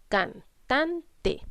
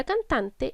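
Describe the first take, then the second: First: "cantante" in three separate beats; syllable by syllable. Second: Said in the usual way. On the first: Shown as a demonstration. Teacher shows three syllables to children, syllable by syllable. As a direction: break "cantante" into can... tan... te. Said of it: "lleva tres sílabas". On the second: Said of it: "es separar las palabras en sílabas".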